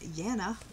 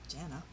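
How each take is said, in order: First: The name begins with a Y sound. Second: The name begins with a J sound. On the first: The speaker calls it right. "And it's Yana" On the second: The speaker calls it wrong. "Because I would have said Jana"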